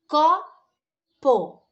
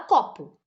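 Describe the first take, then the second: First: It is split into separate syllables. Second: It is said smoothly in one go.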